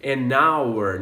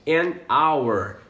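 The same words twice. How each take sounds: First: "An hour" again, the h silent; "hour" sounds like "our"; "An hour", vowel start; repeat model. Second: "an hour" with a silent h, like "an our"; "hour" starts on the vowel; model pronunciation. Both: Shown as a demonstration. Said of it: "A mesma coisa com essa outra palavra".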